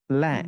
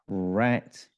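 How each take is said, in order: First: The word begins with an L sound. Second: The word begins with an R sound.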